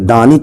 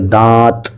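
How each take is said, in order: First: The n is pronounced as a full consonant. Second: The n is hidden as nasalization only. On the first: The speaker calls it wrong. "ना के दानित हम नहीं पढ़ गए" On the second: The speaker calls it right. "नून को नाक में छुपा कर पढ़ गए"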